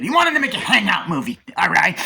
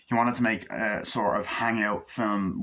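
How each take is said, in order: First: High, loud, hammed-up emphasis; emphatic exclaim. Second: Said in the usual way. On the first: Real, not acted. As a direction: sell the point like a showman. Emphatic restatement of the point.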